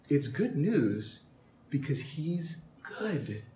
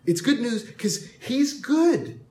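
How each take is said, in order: First: Softer and slower, almost hushed; hushed first pass. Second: Emphatic second pass. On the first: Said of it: "It's good news 'cause he's good". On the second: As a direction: punch "good" out to the room. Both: Acted.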